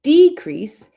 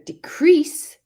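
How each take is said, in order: First: The stress is on the first syllable. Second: The stress is on the second syllable. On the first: It is used as a noun. "that is a noun. The stress is on the first syllable" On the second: It is used as a verb. "with the stress on the second syllable is the verb"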